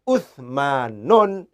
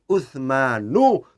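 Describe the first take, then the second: First: The word ends with an added n sound. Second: The word ends in a vowel, no final n. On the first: The speaker calls it wrong. "tidak boleh Uthmanun" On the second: The speaker calls it right. "cara bacanya harus Uthmanu"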